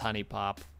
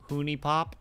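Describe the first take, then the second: First: The first vowel is a short 'uh' sound. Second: The first vowel is a long 'oo' sound. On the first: This is how the name was always read before. "I always read it as" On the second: This is the new guess at the name. "Ooh, Scooby, Hooney"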